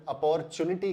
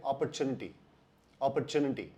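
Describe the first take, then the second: First: अपॉर्चुनिटी with a full open a-por start; अपॉर्चुनिटी said a-por-chu-ni-ty, stressed por; अपॉर्चुनिटी as ah-POR-tunity; wrong pronunciation. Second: अपॉर्चुनिटी said op-er-tu-ni-ty, light first syllable; अपॉर्चुनिटी as op-per-TOO-nity; correct pronunciation. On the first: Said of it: "उच्चारण सही नहीं है". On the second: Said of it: "सही उच्चारण है". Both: Shown as a demonstration.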